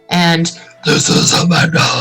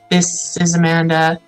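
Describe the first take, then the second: First: It is said in a disguised, altered voice. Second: It is said in a flat, natural voice. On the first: The speaker hides who they are. "disguising your voice" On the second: The speaker could still be recognized. "speaking just monotone"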